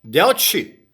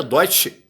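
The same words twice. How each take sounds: First: "Deutsche" read letter for letter, with "eu" as e-u; read as spelt. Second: "Deutsche" said with "eu" as "oy"; German pronunciation. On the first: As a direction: sound out "Deutsche" as DEH-oo-chee. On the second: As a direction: say "Deutsche" as DOY-chee, the German way. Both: Shown as a demonstration. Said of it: "a pronúncia é Deutsche".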